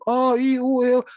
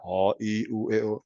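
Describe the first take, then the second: First: The vowels are said at a high pitch. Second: The vowels are said at a low pitch. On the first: "tinggi, coba tinggi"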